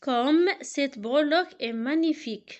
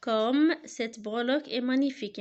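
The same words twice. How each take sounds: First: Loud, admiring exclamation; a marvelling exclamation, louder; exclamation read aloud. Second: Said in the usual way. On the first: Shown as a demonstration. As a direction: read it out as real wonder. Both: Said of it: "il se termine par un point d'exclamation".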